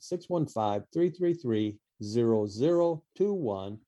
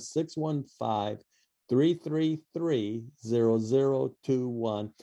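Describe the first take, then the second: First: The number is said fast. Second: The number is said slowly.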